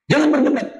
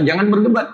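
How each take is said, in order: First: Jangan lifted high, then a falling end; stern warning on Jangan; stress on Jangan. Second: Said in the usual way. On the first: Shown as a demonstration. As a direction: hit the word Jangan hard and let it drop.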